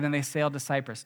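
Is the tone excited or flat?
flat. It is said in a flat, casual tone. The journey is an ordinary event. The speaker calls it wrong. "Don't read it like that"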